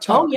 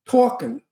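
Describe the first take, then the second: First: The word has a plain, non-New York accent. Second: The word has a New York accent. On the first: The speaker calls it wrong. "not talking" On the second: The speaker calls it right.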